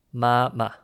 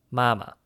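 First: Ma ma as two separated syllables, first level, second light; first tone, then toneless. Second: Mama run together, level first syllable, light second; first tone, then toneless. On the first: Co-host building the word for mom, separated syllables. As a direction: spell out ma ma syllable by syllable. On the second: Co-host giving the whole word for mom, syllables joined. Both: Shown as a demonstration. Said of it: "and once without a tone".

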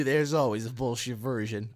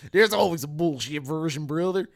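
First: Said in the usual way. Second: Loud mock tough-guy voice; hammed-up taunt. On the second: Teasing a friend about his version, hammed up loudly. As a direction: boom it out in a put-on voice.

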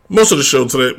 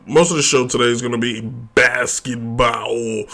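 First: Grainy voice wobbling in pitch; unstable grainy voice. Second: Said in the usual way. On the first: Real, not acted. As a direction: voice slipping all over the place. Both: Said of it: "my voice is all over the place".

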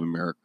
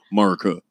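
First: Said in the usual way. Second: "America" squashed into "Murica"; "America" as a joking "Mur-ca"; 'Murica pronunciation. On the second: Shown as a demonstration. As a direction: say "America" with the first vowel dropped, mock-patriot style. Redoes word as "Murica.

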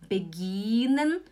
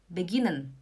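First: "beginnen" with a long, rising second vowel; wrong long vowel. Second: "beginnen" with a quick, short i, falling; short vowel. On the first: Teacher showing how not to say it, dragged vowel. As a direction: drag out the "gi" in "beginnen". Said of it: "Você não fala". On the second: Teacher giving the correct version, short vowel. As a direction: keep the "gi" in "beginnen" short, lower. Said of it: "você fala beginnen". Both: Shown as a demonstration.

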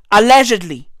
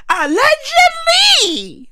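First: Said in the usual way. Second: ALLEGEDLY in a high, drawn-out cry; emphatic repeat. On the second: Real, not acted. Repeating a disclaimer to viewers, "Allegedly" high and drawn out. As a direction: stretch out "Allegedly" at a very high pitch. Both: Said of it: "Let me repeat that".

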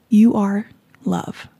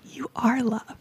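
First: Tender affirmation. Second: Softer, hushed repeat of you are love; whispered affirmation. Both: Real, not acted. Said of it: "I just wanted to say".

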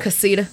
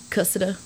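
First: "Casita" as kuh-SEE-duh; stress on middle syllable. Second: "Cussida" as KUSS-uh-duh; stress on first syllable. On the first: Asking how the town is said, "Casita" as kuh-SEE-duh. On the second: Asking how the town is said, "Cussida" as KUSS-uh-duh. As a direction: say "Cussida" with stress up front, short middle. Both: Shown as a demonstration. Weighing two pronunciations of a place.

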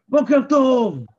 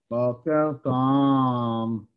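First: High, loud bright בוקר טוב greeting; cheerful good morning. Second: Low, very slow dragged בוקר טוב; gloomy good morning. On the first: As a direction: greet them with energy. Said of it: "אם אני אבוא ואני אגיד לכם". (בוקר טוב עליז, גבוה וחזק) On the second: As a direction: drag the greeting out heavily. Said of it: "הרגשה אחרת לגמרי". (בוקר טוב איטי וכבד, נמוך) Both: Shown as a demonstration.

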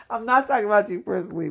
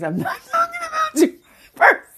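First: Said in the usual way. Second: High, fast, laughing shout; laughing exclaim. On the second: Real, not acted. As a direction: squeal it out while laughing. Laughing reassurance to listeners.

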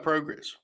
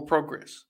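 First: "progress" starting like "pro"; long-o progress. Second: "progress" starting like "prog"; short-o progress. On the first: Host asks chat the right way, "progress" with long o. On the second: Host offers chat the alternative, "progress" with short o. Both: Shown as a demonstration. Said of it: "What is the way to talk about progress or progress".

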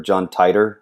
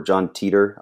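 First: Titor said as TIE-ter; "Titor" rhyming with lighter; alternative pronunciation. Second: Teeter said as TEE-ter; "Teeter" with first syllable like tea; alternative pronunciation. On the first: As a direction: say "Titor" with a long eye sound, TIE-ter. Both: Shown as a demonstration. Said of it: "I don't know how you pronounce it".

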